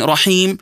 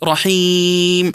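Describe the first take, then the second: First: The long vowel is held for two counts. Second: The long vowel is held for four counts. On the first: "نمدها بمقدار حركتين" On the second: "نمدها بمقدار أربع حركات"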